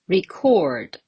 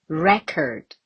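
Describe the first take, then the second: First: It is said with the verb stress pattern. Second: It is said with the noun stress pattern. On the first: It is the verb. "The verb record" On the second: It is the noun. "What about the noun?"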